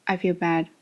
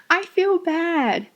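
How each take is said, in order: First: Deadpan, low monotone; flat intonation. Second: Slow, high-pitched cheerful lilt; very happy-sounding. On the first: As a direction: say it with no feeling at all. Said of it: "a flat intonation". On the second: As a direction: say bad news as if delighted. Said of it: "You sound very happy". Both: Shown as a demonstration.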